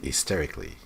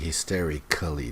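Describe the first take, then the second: First: It is said smoothly with a reduced syllable. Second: Every syllable is sounded out separately. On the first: The speaker calls it right. "when people talk, they will just say hysterically" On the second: The speaker calls it wrong. "They're not going to say hysterically"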